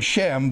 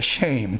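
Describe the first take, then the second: First: The vowel is a short 'eh' sound. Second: The vowel is a long 'ay' sound. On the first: "It's the word Shem" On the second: "but it's pronounced in Hebrew, shame"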